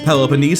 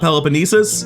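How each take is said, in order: First: The word ends with a short 'neez' sound. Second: The word ends with a longer 'neesus' sound. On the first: The speaker calls it right. "apparently is Peloponnese" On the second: The speaker calls it wrong. "and not Peloponnesus"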